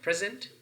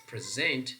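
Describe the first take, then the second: First: "present" with high stress on PRES; PRES-ent, the noun form of "present"; stress on first syllable. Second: "present" with stress on SENT; pre-SENT, the verb form of "present"; stress on second syllable. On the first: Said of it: "stress pattern is on the first syllable". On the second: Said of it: "stress pattern is on the second syllable". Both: Shown as a demonstration.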